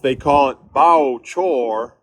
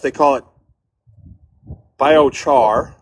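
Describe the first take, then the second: First: It is said in a Southern accent. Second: It is said in a Midwestern accent.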